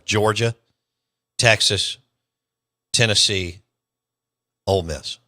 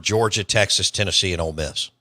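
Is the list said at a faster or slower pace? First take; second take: slower; faster. First: The list is said slowly and deliberately. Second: The list is said at a normal pace.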